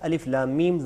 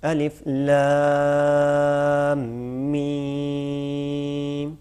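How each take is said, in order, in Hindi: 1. लंबे स्वर छोटे रखे जाते हैं। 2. लंबे स्वर लंबा खींचकर पढ़े जाते हैं। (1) "मतलब ये गलत है" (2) "छः हरकत के बराबर इसको खींचना चाहिए"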